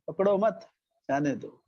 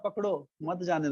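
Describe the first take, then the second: First: The pause comes right after 'mat'. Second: The pause comes right after 'pakdo'. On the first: Do not catch him, let him go. "इसने बोला" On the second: Catch him, do not let him go. "इसने ऐसा नहीं बोला"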